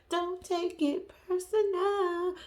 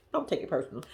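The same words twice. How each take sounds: First: Higher, slow, stretched out on personal; slow teasing sing-song "Don't take it personal."; drawn-out sing-song. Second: Said in the usual way. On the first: Shown as a demonstration. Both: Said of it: "repeated drawn out".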